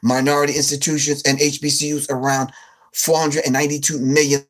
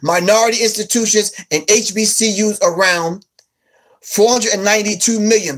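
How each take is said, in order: First: The phrase is read at a fast pace. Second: The phrase is read at a slow pace. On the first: "Maybe I was reading too fast" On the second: "Let me slow down"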